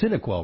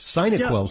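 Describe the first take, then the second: First: The first syllable sounds like 'sin', as in synapse. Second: The first syllable sounds like 'sigh', as in sinus. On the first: "It's Cinequel, right?" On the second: "Cinequel suggests it might be something for your sinuses"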